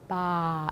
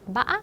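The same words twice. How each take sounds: First: The tone falls downward. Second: The tone wavers like a goat's bleat. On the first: It means grandmother. "이거 내리는 성조 읽으면은" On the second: It means dregs or sediment. "물결 성조, 염소소리 성조"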